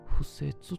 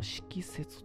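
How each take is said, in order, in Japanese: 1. この単語は'fu'と読みます。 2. この単語は'shiki'と読みます。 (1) "不説と読むそうですね" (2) "敷説とかって呼んでもうたんかな"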